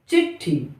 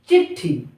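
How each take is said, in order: Both takes have the same delivery.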